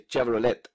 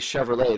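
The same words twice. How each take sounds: First: It begins with a ch sound. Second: It begins with an sh sound.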